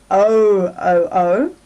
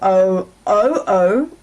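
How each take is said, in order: First: The stress is on the first syllable. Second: The stress is on the second syllable. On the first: "the first one"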